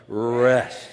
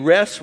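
First: "Rest" stretched long and firm; slow, strong, drawn-out "Rest". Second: Said in the usual way. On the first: Shown as a demonstration. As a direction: draw out the word "Rest" with force. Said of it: "shout it real slow and strong". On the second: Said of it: "I'm gonna say 'em slow".

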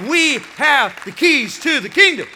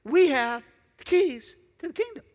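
First: Loud proclamation. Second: "We" lifted high with a rising tune; stress on we. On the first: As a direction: shout it out, higher and louder. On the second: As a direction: lean on "We", rising at the end. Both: Real, not acted. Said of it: "I wanna say it again".

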